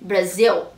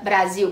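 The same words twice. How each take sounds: First: The word ends with a clear L sound. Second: The word ends with a U-like vowel sound. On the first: The speaker calls it right. "você tem que colocar o L no final, ou seja, o som de L" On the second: The speaker calls it wrong. "como a gente falaria"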